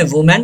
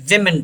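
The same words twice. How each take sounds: First: "वुमेन" said as wu-men; singular pronunciation. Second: "विमेन" said as wim-en; plural pronunciation. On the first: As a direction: say "वुमेन" with an oo vowel first. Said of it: "singular form में वुमेन पढ़ा जाता". ("वुमेन", एकवचन का उच्चारण "वु" से) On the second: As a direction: say "विमेन" with a short i first. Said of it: "plural form में हम इसे विमेन". ("विमेन", बहुवचन का उच्चारण "वि" से) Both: Shown as a demonstration.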